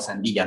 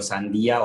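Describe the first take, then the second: First: The word ends in an 'illa' sound. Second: The word ends in a plain 'ía' sound. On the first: "o illa" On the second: "termina en ia"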